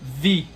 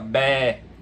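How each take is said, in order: First: It begins with v and has an i vowel. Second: It begins with b and has an e vowel. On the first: This is the modern Greek pronunciation. "se você for comparar com o grego moderno, o grego atual, a pronúncia desse som seria vi" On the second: This is the ancient Attic pronunciation. "ou beta e alfa longo, a depender do dialeto, né? Ou seja, bé"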